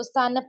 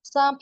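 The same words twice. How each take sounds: First: सानप with a clearly sounded n before p; wrong full n. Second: सांप with the n hidden in the nose; nasalised vowel. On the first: Urdu teacher warning learners off a reading, full n demo. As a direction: sound out the n in सानप as its own consonant. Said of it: "उसको सानप नहीं पढ़ेंगे". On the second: Urdu teacher giving learners the right reading, nasalised vowel. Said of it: "सांप ही पढ़ेंगे आप". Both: Shown as a demonstration.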